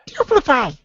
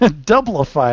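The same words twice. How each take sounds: First: It is said in a high Toad voice. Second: It is said in a normal voice.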